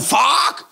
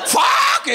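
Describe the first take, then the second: First: "Fuck!" said with a broad Å and a rolled R, loud and high. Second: High, loud squawking "Fuck!" with a laugh; hen laying an egg. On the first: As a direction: bark "Fuck!" as "fåårk". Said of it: "udtaler fuck med Å og R". ("Fuck!" udtalt med Å og R) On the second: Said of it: "som en høne, der lægger et lidt for stort æg". (høne der skriger "Fuck!") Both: Retold or imitated.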